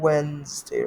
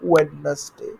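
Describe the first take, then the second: First: The middle d sound is left out. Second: The middle d sound is pronounced. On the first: The speaker calls it right. "ওয়েডনেসডে এর জায়গায় we have to say ওয়েন্সডে" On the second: The speaker calls it wrong. "ওয়েডনেসডে যেটা বলি বাংলায়"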